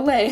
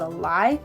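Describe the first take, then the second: First: The vowel sounds like the one in 'day'. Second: The vowel sounds like the one in 'eye'. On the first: The speaker calls it right. "oh, a lay. uh, whoops" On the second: The speaker calls it wrong. "I'm so used to calling it a lie"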